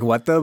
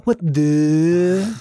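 First: Said in the usual way. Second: "What the?" pitched up, with the "the" drawn long and rising; trailing what the. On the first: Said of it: "But he, like, really trails his". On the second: Retold or imitated. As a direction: stretch the "the" in "What the?" up and away, baffled. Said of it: "really trails his "the".

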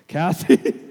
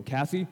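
First: Loud, comic rising yelp; desperate blurted call. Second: Mildly hesitant, rising question; timid questioning call. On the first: Suitor hits the keys as she leaves, desperate blurt. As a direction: burst out with her name, half laughing. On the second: Nervous suitor stopping his crush as she leaves, tentative. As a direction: call her name tentatively, mock-nervous. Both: Retold or imitated.

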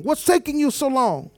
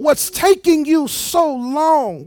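First: Said in the usual way. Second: High, slow "so long", stretched out; slow, raised, exasperated "so long"; drawn-out impatience. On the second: Acted. Acted impatient question, first take drawn out.

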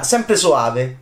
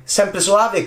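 First: Said in the usual way. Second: Sung high. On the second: Shown as a demonstration.

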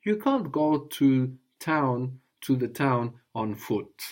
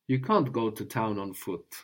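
First: Slow, careful teaching phrase; slow model phrase. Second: Said in the usual way. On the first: Shown as a demonstration. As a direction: lay it out slowly for the student. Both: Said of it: "So how would you say".

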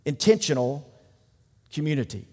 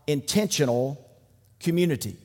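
First: Intentional and community set apart, each after a pause, community trailing soft; slow emphasis. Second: Said in the usual way. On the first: Shown as a demonstration. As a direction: pause before each word, let community fall away quietly.

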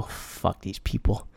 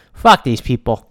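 First: Very low, hushed aside, drawn out; muttered disgust. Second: Said in the usual way. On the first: Retold or imitated. Speaker recalling seeing the signs, muttered very quietly. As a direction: curse them slowly under your breath.

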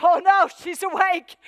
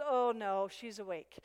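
First: Loud, high cry of dismay; mock alarm. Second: Said in the usual way. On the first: Enemy dreading the woman who just woke up, loud mock alarm.

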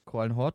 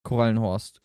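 First: Korallenhort said without the s, ending in Hort. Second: Korallenhorst said with an s, ending in Horst. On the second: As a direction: say Korallenhorst with the s before the final t. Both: Shown as a demonstration. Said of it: "Nicht verwechseln mit dem Korallenhorst".

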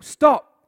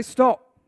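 First: Sharp loud command to halt; commanding stop. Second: Loud call-and-response shout; loud stop. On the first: Acted. Samuel sternly halting King Saul, loud command. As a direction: bark it like a prophet. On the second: Shown as a demonstration. Preacher leading the congregation, loud call-out. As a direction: call it out with the crowd. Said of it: "Everyone say".

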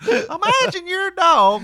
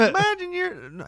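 First: High, slow, drawn-out comic voice; Jeff Foxworthy impression. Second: Gallagher impression. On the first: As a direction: set it up like a stand-up bit. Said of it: "that's more Jeff Foxworthy". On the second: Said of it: "how did Gallagher sound?".

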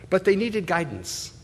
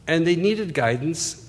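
First: They pushed up high and falling; stress on they. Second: "needed" lifted with a rise; stress on needed. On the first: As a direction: lean on "they", not on guidance. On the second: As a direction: shift the weight onto "needed". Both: Shown as a demonstration.

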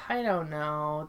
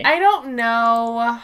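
First: Softer, lower I don't know; quiet trailing-off. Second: Slow, stretched I don't know; drawn-out shrug. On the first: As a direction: let it drop away resignedly. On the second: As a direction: drag it out in mock helplessness. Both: Real, not acted. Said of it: "repeats it differently".

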